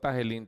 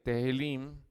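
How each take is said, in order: First: The first vowel sounds like 'a'. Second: The first vowel sounds like 'e'. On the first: The speaker calls it wrong. "perdón, no Tahilim" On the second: The speaker calls it right. "Tehilim, que es T E H I L L I M"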